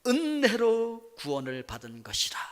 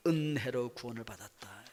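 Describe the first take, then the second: First: 은혜로 drawn out slowly with a falling tune; 은혜로 said slowly and weightily, falling at the end; stress on grace. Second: 은혜로 said low and soft with a rising tune; congregation-style reply, 은혜로 quiet and rising; answer stressing grace. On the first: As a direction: lean on 은혜로 and let it fall. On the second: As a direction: softly answer 은혜로, lifting the end. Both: Shown as a demonstration. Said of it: "뭘로 구원받았다고요?".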